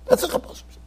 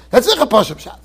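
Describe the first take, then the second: First: Breathy whisper with no voice; whispered repeat. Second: Said in the usual way. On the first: Shown as a demonstration. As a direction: drop to a secret whisper.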